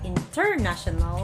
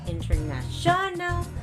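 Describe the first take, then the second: First: The stress is on the second syllable. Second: The stress is on the fourth syllable. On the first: "you'll be stressing out on the second" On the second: "not international on the fourth, that's wrong"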